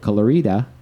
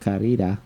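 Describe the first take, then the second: First: The R sound is not rolled. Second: The R sound is rolled. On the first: The speaker calls it wrong. "I know I said that wrong" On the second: The speaker calls it right. "I'm gonna roll my R a little bit better"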